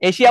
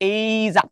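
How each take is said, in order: First: The word is said with an 'sh' sound. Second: The word is said with a 'zh' sound. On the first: The speaker calls it wrong. "এশিয়া বলবা না" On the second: The speaker calls it right. "এটা কিন্তু true উচ্চারণ"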